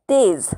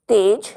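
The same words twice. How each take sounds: First: तेज with ज़ as a z, like "tez"; nukta z sound. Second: तेज with a plain ज, like "tej"; plain j sound. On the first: Teacher demonstrating तेज with a z sound. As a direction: end तेज on a buzzing z. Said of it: "दूसरे शब्द में आप देखेंगे ज़". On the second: Teacher demonstrating तेज with a plain j. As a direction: say तेज with a hard j as in jam. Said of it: "पहले वाले शब्द में जा का उच्चारण". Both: Shown as a demonstration.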